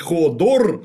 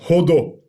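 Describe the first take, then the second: First: The name ends with an r sound. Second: The name ends in a vowel, without r. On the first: This is the name as it is written. The speaker calls it wrong. "он не Ходор, хотя написано, безусловно, так" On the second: This is how the character says his own name. The speaker calls it right. "он Ходо. И он сам себя зовет не Ходор, а Ходо"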